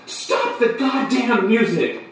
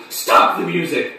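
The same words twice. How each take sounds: First: High, slow, escalating scream; drawn-out scream. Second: Raised, urgent mock scream; screamed demand. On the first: Acted. Narrator screaming again at the coffee house music, exasperated high scream. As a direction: scream it out, stretching every word. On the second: Narrator screaming at the coffee house to stop the music, acted scream. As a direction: cry out to halt the music. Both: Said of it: "And I screamed".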